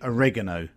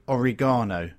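First: It is said with the American pronunciation. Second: It is said with the British pronunciation. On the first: "But in America, they say oregano" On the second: "In England, I believe, you say oregano"

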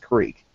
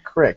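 First: It is said with a Philadelphia pronunciation. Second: It is said with a Western Pennsylvania pronunciation. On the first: The speaker calls it right. "It's creek" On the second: The speaker calls it wrong. "And it's not crick"

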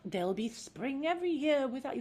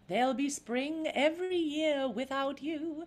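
First: It sounds worried and heavy. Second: It sounds light and bright.

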